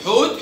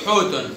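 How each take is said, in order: First: First حوت stops on t; sukun ending. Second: حوت said as "hootun"; damma tanween. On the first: Teacher sums up the rule, حوت with bare t. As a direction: say حوت with no final vowel. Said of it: "وبنحط سكون". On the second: Teacher sums up the rule, حوت ending in -un. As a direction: add -un to حوت. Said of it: "بنحط ضمة". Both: Shown as a demonstration.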